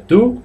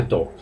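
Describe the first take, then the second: First: "do" said as "du"; pronounced with U. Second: "do" with a Spanish o, like "doh"; spelled-out mispronunciation. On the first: Teacher repeats the correct sound, "do" as "du". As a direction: make "do" rhyme with "too". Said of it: "Repito, se pronuncia do". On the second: Teacher warns against it, "do" said as "doh". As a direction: read "do" just as written. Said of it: "ni se dice do". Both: Shown as a demonstration.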